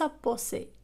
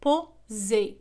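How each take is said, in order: First: The middle consonant is an S sound. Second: The middle consonant is a Z sound. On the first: The speaker calls it wrong. "وليس" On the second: The speaker calls it right. "فإنها تنطق Z"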